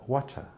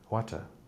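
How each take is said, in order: First: It is said in a British accent. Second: It is said in a British accent.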